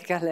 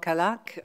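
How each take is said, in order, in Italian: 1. La seconda sillaba ha la vocale 'e'. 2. La seconda sillaba ha la vocale 'a'. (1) "si pronuncerebbe in un altro modo che è Kalek" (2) "noi lo pronunciamo Kalak"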